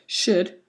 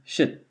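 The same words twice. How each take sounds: First: The word is said in full form. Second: The word is reduced to weak form.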